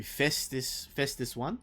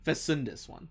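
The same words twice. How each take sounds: First: "Festus One" with the middle syllable dropped; mispronounced name. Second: "Fesundus One" with all three syllables; corrected name. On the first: Acted. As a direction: say "Festus" in two syllables, FES-tus. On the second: Real, not acted. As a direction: say "Fesundus" in full, fe-SUN-dus. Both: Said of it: "I just said it wrong".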